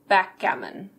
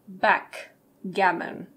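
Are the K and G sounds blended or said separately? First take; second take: blended; separate. First: The K flows smoothly into the G. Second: The K and G are said separately. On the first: The speaker calls it right. "The K flows into the G, so we say backgammon" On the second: The speaker calls it wrong. "We don't say backgammon"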